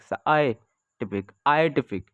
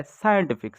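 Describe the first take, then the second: First: "scientific" said slowly, syllable by syllable; slow syllable demo. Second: Said in the usual way. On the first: Shown as a demonstration. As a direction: stretch out "scientific" to show its sounds. ("Scientific" धीरे-धीरे तोड़कर)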